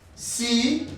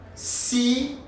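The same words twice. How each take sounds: The two takes are said the same way.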